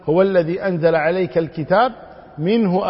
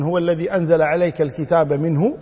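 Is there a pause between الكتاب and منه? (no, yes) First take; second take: yes; no. First: A pause falls between الكتاب and منه. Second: الكتاب and منه run together, then a stop. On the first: The pronoun in منه refers to the Book. "أو أن يعود الضمير إلى الكتاب ... أي من الكتاب" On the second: The pronoun in منه refers to God. "فيكون هو الذي أنزل عليك الكتاب منه، أي من الله"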